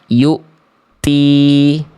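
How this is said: The t has only a light puff of breath. The speaker calls it right. "Tetap ada percikan nafas, tapi nggak berlebihan"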